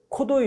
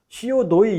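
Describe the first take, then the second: First: C and O merge into one syllable, 'co'. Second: C and O are spoken as separate letters. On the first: The speaker calls it wrong. "이래버린 거예요" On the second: The speaker calls it right. "이래야 되는데"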